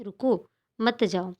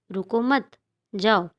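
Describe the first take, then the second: First: Slow, "रुको", a break, then "मत जाओ"; pause after रुको. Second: Slow, "रुको मत" joined, a break, then "जाओ"; pause after मत. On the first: Teacher explains the first comma placement, pausing after "रुको". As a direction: stop after "रुको" and keep "मत जाओ" together. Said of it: "के बाद अल्प विराम लगा है". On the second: Teacher explains the second comma placement, pausing after "मत". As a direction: keep "रुको मत" together and stop before "जाओ". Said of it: "रुकने से मना किया जा रहा है". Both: Shown as a demonstration.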